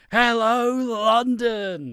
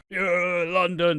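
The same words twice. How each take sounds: First: Loud high call to the crowd; rock star crowd call. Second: Loud call to the crowd. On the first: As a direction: belt it to a stadium crowd. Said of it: "talking to a crowd and be like". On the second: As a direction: shout it to the stadium. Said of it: "It's like". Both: Retold or imitated.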